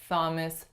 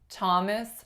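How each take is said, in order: First: It begins with a th sound. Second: It begins with an aspirated t sound. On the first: The speaker calls it wrong. "We do not say Thomas" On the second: The speaker calls it right. "make an aspirated syllable initial T sound"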